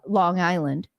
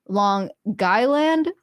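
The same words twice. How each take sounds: First: It is said in a plain West Coast accent. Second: It is said in a local Long Island accent. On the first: The speaker calls it wrong. "in proper English, coming from Washington State, Seattle" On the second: The speaker calls it right. "but apparently it's Long Island"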